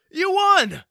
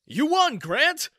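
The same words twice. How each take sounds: First: Even higher, far louder shriek of joy; ecstatic scream. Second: Much higher and louder cheering call; excited shout. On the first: Coworker screaming the win to Grant, ecstatic shriek. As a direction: scream it at full lungs. Announcing raffle winner. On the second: Coworker announcing the raffle winner, cheering shout. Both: Acted.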